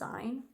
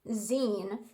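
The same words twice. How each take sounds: First: It does not sound like magazine's ending. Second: It sounds like the end of magazine. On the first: The speaker calls it wrong. "I always pronounced it as zine. Oops" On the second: The speaker calls it right. "it's pronounced zine, which makes sense because it's short for magazine"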